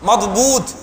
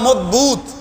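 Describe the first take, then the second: The two takes are said the same way.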